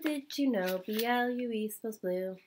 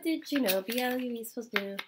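First: It is read at a normal pace. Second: It is read very fast.

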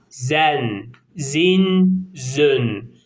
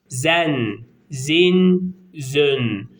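Both takes have the same delivery.

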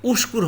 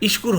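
First: The word begins with a u vowel. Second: The word begins with an i vowel. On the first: The speaker calls it right. "উস্কুর হবে" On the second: The speaker calls it wrong. "ইশকুর হবে না"

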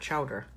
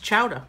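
First: The word ends in an 'er' sound. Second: The word ends in an open 'ah' sound. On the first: The speaker calls it wrong. "not chowder" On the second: The speaker calls it right. "It's chowder with an A"

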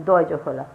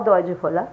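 The two takes are said the same way.

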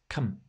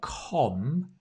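First: The syllable has a reduced schwa vowel. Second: The syllable has a full, clear vowel. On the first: The speaker calls it right. "it's come. It's the reduced schwa sound" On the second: The speaker calls it wrong. "It's not com"

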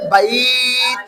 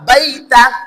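First: The word ends on a closed consonant. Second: The word ends with an open vowel sound. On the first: The reading stops on this word. "থেমে গেলে বাইত" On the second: The reading continues without stopping. "তা জবর তা"

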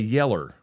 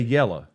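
First: The word ends with an added R sound. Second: The word ends in a plain vowel, no R. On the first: "other people say yeller. So they're adding R's" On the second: "We say yellow"

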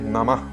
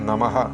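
First: The ending is a soft breathy release. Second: The ending adds a full 'ha' syllable. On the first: The speaker calls it right. "ഞാൻ ചൊല്ലിയതുപോലെ ... വിടലായിട്ട്" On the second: The speaker calls it wrong. "ഹാ ചേർത്തുകൊണ്ടും ഉച്ചരിച്ച് കേട്ടിട്ടുണ്ട്"

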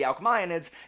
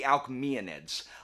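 First: The 'ae' sounds like 'eye'. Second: The 'ae' does not sound like 'eye'. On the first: This follows the Latin way of reading the letters. "I'm gonna say I, because that's how it's pronounced in Latin" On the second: This follows the Greek way of reading the letters. "instead of"

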